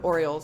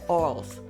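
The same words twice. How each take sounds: First: It is said in a plain standard accent. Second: It is said in a Baltimore accent.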